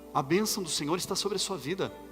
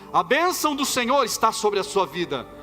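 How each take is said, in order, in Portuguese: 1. É dita em volume normal de fala. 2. É dita um pouco mais alto do que antes.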